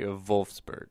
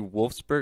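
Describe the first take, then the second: First: The name starts with a V sound. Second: The name starts with a W sound. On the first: "I say the V for the W's" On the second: "I don't say Wolfsburg"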